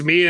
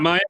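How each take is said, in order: First: The name begins with a 'mee' sound. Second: The name begins with a 'my' sound. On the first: The speaker calls it right. "it's Mia and not Maya" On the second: The speaker calls it wrong. "and not Maya"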